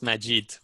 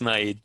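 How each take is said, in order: First: The name is pronounced the original way. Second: The name is pronounced the German way. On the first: The speaker calls it right. "the right pronunciation for that it's Majid" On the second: The speaker calls it wrong. "in German, it's Maid"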